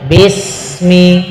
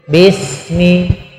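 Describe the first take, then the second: The two takes are said the same way.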